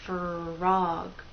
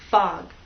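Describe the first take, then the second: First: It is one smooth syllable with R heard. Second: It is rushed and the R disappears. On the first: The speaker calls it right. "They blend together and go into the next vowel sound" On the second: The speaker calls it wrong. "If you go too fast, people may not hear R"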